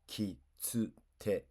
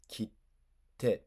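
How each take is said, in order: First: The middle is a full 'tsu' syllable. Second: The middle is a held silent beat before 'te'. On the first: The speaker calls it wrong. "Reading the small t out loud, like a regular t. Wrong" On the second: The speaker calls it right. "Prepare a T, hold, release"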